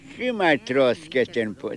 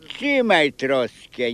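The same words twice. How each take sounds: First: Said in the usual way. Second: Slow, deliberate "trzymaj troskę"; slow insistence. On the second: Retold or imitated. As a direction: drag out "trzymaj troskę" to press the point.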